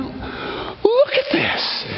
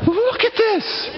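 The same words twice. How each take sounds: First: High, slow, unvoiced gasp of wonder; breathless awe. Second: High, voiced cry of amazement; voiced awe. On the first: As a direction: breathe it out, stunned. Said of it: "I mean". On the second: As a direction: call it out, thrilled. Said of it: "And I just went".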